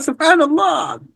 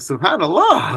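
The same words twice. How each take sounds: First: It is said in an admiring, impressed tone. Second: It is said in a groaning, unimpressed tone. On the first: The thing was clever and cool. "So it means it was cool" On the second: The thing was corny. "It means it was corny"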